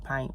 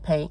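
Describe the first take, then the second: First: The vowel sounds like the one in line. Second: The vowel sounds like the one in rain. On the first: This is the way others say it should be. "I heard it was supposed to be pint" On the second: This is the speaker's own habitual way. "I say paint"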